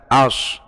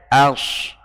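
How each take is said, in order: First: As darkened toward o; wrong as. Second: As slow with a light plain a; correct as. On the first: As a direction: show the heavy as. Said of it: "bukan as". (as yang salah) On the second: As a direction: keep as light. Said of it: "Harusnya as". (as yang benar) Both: Shown as a demonstration.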